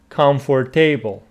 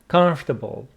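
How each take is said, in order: First: The middle 'or' syllable is pronounced. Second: The middle 'or' syllable is dropped. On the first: "I hear some people say comfortable" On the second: "Looks like this O is not pronounced"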